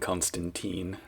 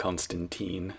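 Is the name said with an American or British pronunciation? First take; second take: American; American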